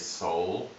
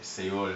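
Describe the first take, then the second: First: The word is said with an English pronunciation. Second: The word is said with a Spanish pronunciation. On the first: "in English we say Seoul, but even then it's a little bit wrong" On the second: "even in Spanish they say Seoul"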